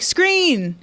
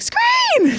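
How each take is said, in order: First: It is said at normal pitch. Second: It is said high-pitched and loud.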